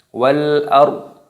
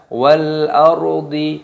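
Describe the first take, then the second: First: The phrase ends on a bare consonant. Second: The phrase ends with an added vowel. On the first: The speaker calls it right. "ketika berhenti maka untuknya ini dimatikan, disukun" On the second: The speaker calls it wrong. "bukan dibaca wal ardi, tidak seperti itu"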